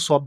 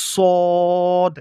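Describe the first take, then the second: First: Said in the usual way. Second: সদ loud and drawn out, rounded vowel; demonstrated pronunciation. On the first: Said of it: "শুধু সদ বললে হবে না". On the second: Shown as a demonstration. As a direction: hold সদ long and strong on a level note. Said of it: "এইভাবে উচ্চারণ করতে হবে". (সদ জোরে, গোল করে টেনে)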